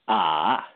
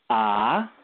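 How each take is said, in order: First: The pitch dips down then rises. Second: The pitch rises steadily upward. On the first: "the third tone" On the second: "the second tone"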